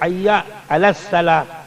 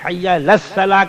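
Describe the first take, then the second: First: A glottal catch separates hayya from al. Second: Hayya runs straight into al without a catch. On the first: The speaker calls it right. "आइन नहीं निकालते, हमजा निकालते हैं।" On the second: The speaker calls it wrong. "गलतियां करते हैं।"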